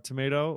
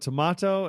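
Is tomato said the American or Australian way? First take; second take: American; Australian. First: It is said with an American pronunciation. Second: It is said with an Australian pronunciation.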